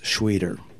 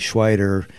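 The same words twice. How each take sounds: First: The first vowel sounds like 'ee'. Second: The first vowel sounds like 'eye'. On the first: The speaker calls it right. "I-E goes to E ... but it's Schweiter" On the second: The speaker calls it wrong. "E-I goes to I. So if it was E-I-T-E-R, it would be Schweiter"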